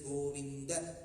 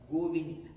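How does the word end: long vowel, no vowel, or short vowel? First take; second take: short vowel; no vowel. First: The word ends in a short a. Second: The final vowel is dropped entirely. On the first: The speaker calls it right. "you have to complete that Hraswam" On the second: The speaker calls it wrong. "cut short that last sound"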